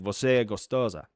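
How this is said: It is said with a Brazilian Portuguese accent. The speaker calls it right. "It's going to be like ... that's one thing to use the accent"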